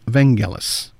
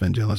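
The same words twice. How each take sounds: First: The G is pronounced hard. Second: The G is pronounced soft. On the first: The speaker calls it right. "the name is pronounced with the hard G" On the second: The speaker calls it wrong. "there was a lot of people saying"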